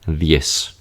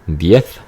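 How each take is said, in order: First: The z is said like English s. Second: The z is said like English th. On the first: "with seseo" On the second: "So now differentiation"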